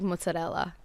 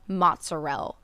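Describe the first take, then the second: First: It is said with an Italian pronunciation. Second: It is said with an Italian American pronunciation. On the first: The speaker calls it right. "instead of like mozzarella" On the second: The speaker calls it wrong. "they would get so mad if we said like anything like that, or if you said like mozzarella"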